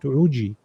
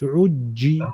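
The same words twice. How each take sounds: First: The middle consonant is short and single. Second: The middle consonant is held doubled. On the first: The speaker calls it wrong. "it's not uji" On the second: The speaker calls it right. "it's uji ... It's saying pull me twice"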